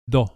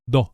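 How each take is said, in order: No difference in how they are said.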